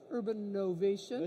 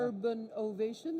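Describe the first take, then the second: First: "Urban Novation" said with an N sound joining the two words; "Novation" starting with a clear N, run together as "Urban Novation"; wrong name. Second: "Urban Ovation" with "Ovation" starting on a vowel, no N; "Ovation" said cleanly apart from "Urban", no N; corrected name. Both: Real, not acted. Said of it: "is that right?".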